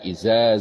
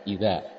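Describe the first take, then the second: First: The middle consonant is a buzzing z sound. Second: The middle consonant is a soft th sound. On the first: The speaker calls it wrong. "sering tertukar antara zal dengan zal" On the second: The speaker calls it right. "kalau huruf zal itu tidak ada udara yang keluar ya"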